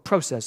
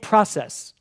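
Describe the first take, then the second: First: The word has a Canadian pronunciation. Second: The word has a non-Canadian pronunciation.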